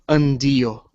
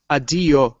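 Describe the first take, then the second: First: The word is said with an n sound. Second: The word is said without an n sound. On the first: "should be pronounced nd" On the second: "some people don't pronounce the n"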